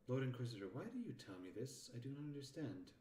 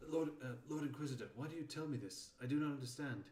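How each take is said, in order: First: Mistaken take on a puzzled underling; lightly voiced character, questioning an Inquisitor; wrong character voice. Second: Higher-pitched puzzled underling; corrected character voice. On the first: Character asking the Lord Inquisitor why, puzzled character voice. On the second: Acted. Character questioning the Lord Inquisitor, higher character voice. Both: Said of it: "that was the wrong character voice".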